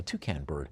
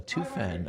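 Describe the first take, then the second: First: Said in the usual way. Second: Toucan slurred like toofan, an f in the middle; slip on the name. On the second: Real, not acted. Auctioneer tripping over the bird's name, toucan said toofan. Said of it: "uh, toucan bird".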